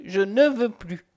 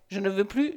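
First: Slow, with stress on "ne"; "ne" stressed, words slowed down; emphatic refusal. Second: Said in the usual way. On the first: A narrator's reading. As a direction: lean hard on "ne", drawing out the refusal.

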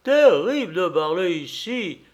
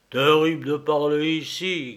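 First: Higher, loud sheep echo; storybook sheep's head voice; bleating sheep. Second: Lightly voiced bear grumble; a hint of a grumbling bear; growling bear. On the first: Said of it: "bêla la tête de mouton". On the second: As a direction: rumble it a little, like a bear. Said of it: "grommela l'ours". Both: A narrator's reading.

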